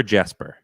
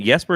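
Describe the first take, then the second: First: Jesper said as "JESS-per"; English J sound at the start of Jesper; hard J in Jesper. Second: Jesper said as "YES-per"; Swedish-style Y at the start of Jesper; Y sound in Jesper. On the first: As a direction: open Jesper with an English J, as in "jet". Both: Shown as a demonstration. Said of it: "is it Jesper or Jesper".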